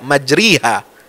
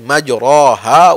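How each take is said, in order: First: The vowel after r is a pure i. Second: The vowel after r is a full open a. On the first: "tidak kasrah murni, tidak majriha"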